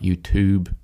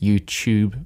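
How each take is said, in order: First: It is said the American way. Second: It is said in a non-American way. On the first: The speaker calls it wrong. "not YouTube. if you listen to too many Americans" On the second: The speaker calls it right. "it's it's YouTube"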